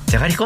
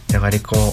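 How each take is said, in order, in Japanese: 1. 驚いた口調で言っています。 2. 悲しい口調で言っています。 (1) "驚いて" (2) "悲しくて"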